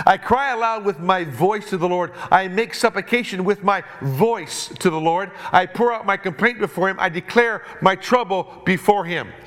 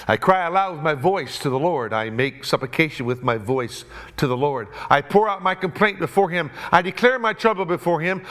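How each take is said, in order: First: Preacher voicing David's cry to God. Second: Measured reading of the psalm; plain Bible reading voice; scripture reading. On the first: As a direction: call it out like David in the echoing cave. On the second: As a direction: read the verses steadily from the pulpit. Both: Shown as a demonstration. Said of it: "imagine what it must have sounded like in the cave when David is shrieking".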